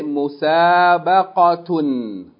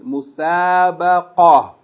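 First: The word ends with a 't' and 'un'. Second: The word ends in a plain 'a' sound. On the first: The reading continues past this word. "If you keep reading, you say" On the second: The reading stops on this word. "If we stop on this word, we'll pronounce it"

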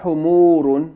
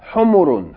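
First: The vowels are drawn out long. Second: The vowels are kept short. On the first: The speaker calls it wrong. "Not humurun" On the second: The speaker calls it right. "Pronounce it with short vowels"

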